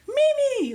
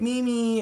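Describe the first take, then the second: First: The name is yelled out loudly. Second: The name is called out quietly. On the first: "like really loud" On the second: "I don't like to yell"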